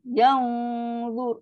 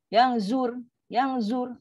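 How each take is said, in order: First: Long thick hum on "Yang", heavy "zur"; slow "Yang zur" with tongue arched. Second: "zur" with a thin zai and light r; short "Yang zur", tongue left low; wrong low reading. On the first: Teacher shows the thick correct take, thick dengung. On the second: Teacher shows the mistake when za becomes zai, low thin reading. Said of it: "Ha, itu rendah". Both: Shown as a demonstration.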